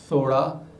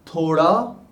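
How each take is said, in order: First: The th is an English-style soft fricative. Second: The th is a Hindi-style dental stop. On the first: The speaker calls it wrong. "We can't call it thoda in uh, their phonology" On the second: The speaker calls it right. "It is thoda"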